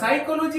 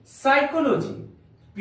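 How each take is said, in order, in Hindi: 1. यह शब्द स्पष्ट P ध्वनि से शुरू होता है। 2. यह शब्द S ध्वनि से शुरू होता है, P से नहीं। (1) "इसको हम लोग साइकोलॉजी नहीं पढ़ेंगे" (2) "यहां पर पी साइलेंट"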